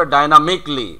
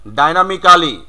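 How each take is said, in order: First: Dynamically said "dai-na-mik-li"; silent A. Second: Dynamically as "dai-na-mi-KA-li"; full "-ka-li" ending on dynamically; local mispronunciation. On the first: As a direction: drop the A in dynamically, ending "-mikli". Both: Shown as a demonstration. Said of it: "তাহলে হবে".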